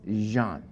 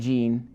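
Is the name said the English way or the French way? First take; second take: French; English. First: The name is said with a French pronunciation. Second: The name is said with an English pronunciation. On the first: The speaker calls it right. "it's Jean, right, French people?" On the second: The speaker calls it wrong. "Not Jean"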